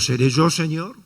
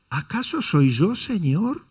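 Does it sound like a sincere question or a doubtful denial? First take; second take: sincere question; doubtful denial. First: It sounds like a sincere, open question. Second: It sounds doubtful, expecting the answer no.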